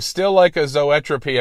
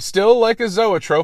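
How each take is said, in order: First: The last word ends with an extra 'ee' sound. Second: The last word ends with an 'ope' sound. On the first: The speaker calls it wrong. "I pronounced it Zoetropy" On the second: The speaker calls it right. "It was supposed to be still like a Zoetrope"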